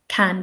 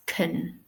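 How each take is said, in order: First: "can" with a full, clear "a"; unreduced vowel in "can"; full strong form. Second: "kun" with a neutral "uh" vowel; weakened vowel, as in unstressed can; schwa weak form. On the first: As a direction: say "can" slowly as a stressed word. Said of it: "can becomes kun". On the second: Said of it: "with the schwa". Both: Shown as a demonstration.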